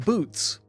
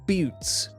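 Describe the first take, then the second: First: The vowel is said in her original, non-American way. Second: The vowel is said with an American-influenced fronted sound.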